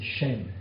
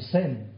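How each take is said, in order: First: The name begins with an sh sound. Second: The name begins with a plain s sound. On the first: This is the original form of the name. "mais en fait c'est Shem" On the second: This is the usual French form of the name. "Nous disons Sem"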